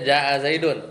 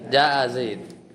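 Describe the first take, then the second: First: The last word ends with an -un sound. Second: The last word ends bare, without a vowel. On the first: This is the full form inside a sentence. "Aslinya jaa zaidun, tanwin" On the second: This is the form used when pausing at the end. "Maka jadilah jaa zaid"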